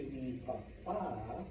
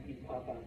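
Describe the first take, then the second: First: "papa" as pa-PA, drawn out; slow "papa", leaning long on the final A; stress on last syllable. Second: "papa" as PA-pa, ending left weak; quiet "papa" with the first A stressed; stress on first syllable. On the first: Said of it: "emphasis on that vowel". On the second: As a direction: lean on the start of "papa". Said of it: "as opposed to me papa". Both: Shown as a demonstration.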